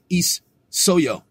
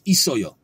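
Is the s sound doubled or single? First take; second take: doubled; single. First: The s sound is doubled across syllables. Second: The s sound is said once only. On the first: The speaker calls it wrong. "You would never pronounce these two letters next to each other individually" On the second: The speaker calls it right. "It's just one S"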